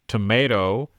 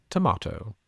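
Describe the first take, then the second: First: American "Tomato", tuh-MAY-toh, louder; American accent. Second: British "tomato", tuh-MAH-toh; British accent. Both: Shown as a demonstration. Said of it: "I liked your accents there".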